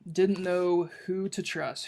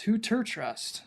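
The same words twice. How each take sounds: First: Said in the usual way. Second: "ter" for "to", higher-pitched and slow; Hagrid-speak pronunciation. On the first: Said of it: "twos are spelled T E R". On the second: Shown as a demonstration. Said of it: "twos are spelled T E R in Hagrid speak".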